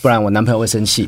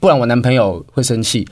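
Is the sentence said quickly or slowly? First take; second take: quickly; slowly. First: The sentence is said quickly, all at once. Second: The sentence is said slowly, drawn out.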